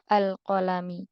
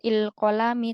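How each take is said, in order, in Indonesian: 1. Vokal pembuka adalah bunyi 'a'. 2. Vokal pembuka adalah bunyi 'i'. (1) "tapi kita baca" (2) "Tidak kita baca"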